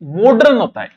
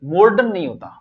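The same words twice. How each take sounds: First: मॉडर्न said "मॉड-रन", d before r; showing मॉडर्न correctly as mod-ren; correct pronunciation. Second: मॉडर्न said as "morडर्न" with r before d; demonstrating मॉडर्न the wrong way, r before d; wrong pronunciation shown. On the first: Teacher gives students the correct मॉडर्न. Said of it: "तो मॉडर्न ये शुद्ध है". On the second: Teacher shows students the common wrong मॉडर्न. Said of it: "हम गलत बोलते हैं कि मॉडर्न". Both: Shown as a demonstration.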